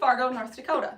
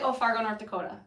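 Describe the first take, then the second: First: It is said neutrally, the pitch going up a little. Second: It is said in a strong North Dakota accent.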